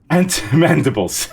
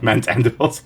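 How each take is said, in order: First: The m sound begins the second word. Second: The m sound begins the first word. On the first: The speaker calls it right. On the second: The speaker calls it wrong. "Not mant andibles"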